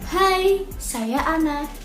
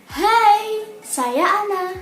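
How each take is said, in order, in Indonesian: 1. Suara ini diucapkan dengan volume sedang. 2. Suara ini diucapkan dengan volume tinggi.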